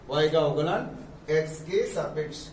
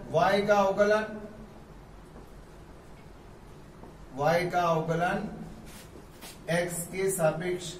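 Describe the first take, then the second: First: Said in the usual way. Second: Teacher reading y ka avkalan slowly; slow careful reading. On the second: Shown as a demonstration. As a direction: read each phrase slowly. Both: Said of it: "ऐसे भी पढ़ते हैं".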